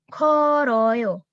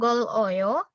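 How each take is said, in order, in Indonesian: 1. Bunyi r mengalir ke suku kata berikutnya. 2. Bunyi l ditahan, lalu jeda. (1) "Langsung ke suku kata berikutnya, jadi huruf R biasa" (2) "Dan ini bukan gol oyo"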